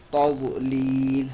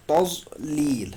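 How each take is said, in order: First: تضلیل chanted slowly in recitation style; chanted, intone تضلیل as in Quran recitation; chanted tazlil. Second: تضلیل drawn out slowly, each sound held; slow tazlil. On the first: Teacher chants تضلیل to close the verse. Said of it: "الم یجعل کیدہم فی تضلیل". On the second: Teacher slowly models تضلیل for pupils. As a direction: stretch out تضلیل syllable by syllable. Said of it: "کیا پڑھیں گے؟". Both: Shown as a demonstration.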